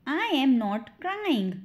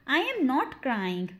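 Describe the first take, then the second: First: Slow, spaced-out sentence; slow model repeat. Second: Said in the usual way. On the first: Shown as a demonstration. Teacher demonstrates the sentence for learners, slowly. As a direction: give each word time.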